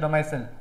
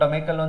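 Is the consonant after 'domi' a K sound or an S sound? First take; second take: S sound; K sound. First: The word is said with an S sound. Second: The word is said with a K sound. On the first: The speaker calls it right. "But it is ಡೊಮೈಸಿಲ್" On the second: The speaker calls it wrong. "ಒಬ್ಬರು ಡೊಮೈಕಲ್ ಅಂತ pronounce ಮಾಡ್ತಾರೆ"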